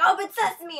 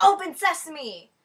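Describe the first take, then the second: First: Higher, loud Open sesame; ditzy girl shouting again at the door; dumb blonde command. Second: Loud, slow Open sesame; ditzy girl yelling at a door; dumb blonde command. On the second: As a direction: command the door grandly, slowly. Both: Retold or imitated. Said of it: "she's like".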